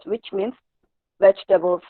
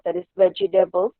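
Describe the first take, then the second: First: The word is said with three syllables. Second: The word is said with four syllables. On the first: The speaker calls it right. "but it's only three syllables" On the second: The speaker calls it wrong. "it will come out to four syllables"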